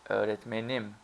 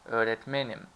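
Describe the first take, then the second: First: The stress does not fall on men. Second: The stress falls on the syllable men. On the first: It refers to my teacher. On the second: I am a teacher.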